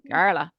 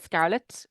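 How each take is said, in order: First: The final t is replaced by a breathy h. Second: The final t is clearly pronounced. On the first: "we take the T off the end and replace it with a H" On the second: "We don't say scarlet"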